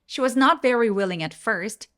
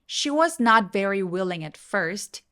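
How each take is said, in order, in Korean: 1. 보통의 빠른 속도로 읽어요. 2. 조금 더 느린 속도로 읽어요.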